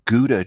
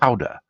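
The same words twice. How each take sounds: First: Gouda is said with an English pronunciation. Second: Gouda is said with a Dutch pronunciation.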